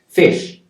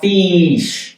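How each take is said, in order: First: The vowel is said short. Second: The vowel is said long. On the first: The speaker calls it right. "So it's short" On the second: The speaker calls it wrong. "It's not fish. No"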